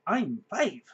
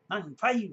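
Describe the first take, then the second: First: Put-on loud proud little kid echo; lightly voiced proud kid; proud child. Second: Put-on high kid voice with a lift at the end; a hint of a beaming child; lightly voiced proud kid. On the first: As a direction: announce it like a child. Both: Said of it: "proudly announced".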